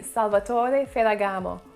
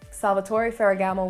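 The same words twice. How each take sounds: First: The R sounds are rolled. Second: The R sounds are not rolled. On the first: "the R's should be rolled" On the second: "will do"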